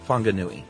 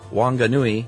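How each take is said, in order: First: The word begins with an F sound. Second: The word begins with a W sound.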